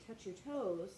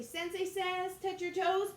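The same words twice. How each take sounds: First: Said in the usual way. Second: High, louder command; commanding call. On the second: Shown as a demonstration. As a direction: call the order out for the game. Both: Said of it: "But if I just say".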